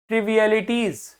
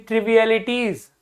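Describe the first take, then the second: No difference in how they are said.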